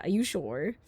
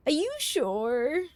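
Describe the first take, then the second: First: Said in the usual way. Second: Slow, lilting tease; teasing drawn-out question. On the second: Shown as a demonstration. Streamer teasing chat, slow doubtful lilt. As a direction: stretch it out, doubting them.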